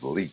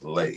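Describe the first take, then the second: First: The name ends with an 'ee' vowel. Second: The name ends with an 'ay' vowel. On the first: This is how most people say the name. "most people pronounce that as Lee" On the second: This is how the family says the name. "my last name is Lay"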